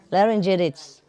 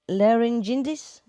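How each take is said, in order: First: "Laryngitis." said firmly with a falling tune; falling statement. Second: "laryngitis?" asked with a rising tune; questioning rise. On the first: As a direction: drop the pitch at the end of "Laryngitis.". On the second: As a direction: lift the end of "laryngitis?" like a question. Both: Shown as a demonstration.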